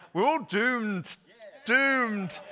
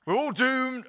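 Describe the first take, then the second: First: Slow, drawn-out mock Scottish doom, high and loud; Private Fraser. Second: Mock Scottish gloom, high and loud; hammed-up doom-laden Scottish wail; Private Fraser. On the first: Pastor's second go at Fraser's line, slow hammed-up Scottish wail. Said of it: "I can't say it in the Scottish accent". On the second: Pastor mimics Dad's Army's Private Fraser, mock Scottish wail. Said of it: "Private Fraser used to go".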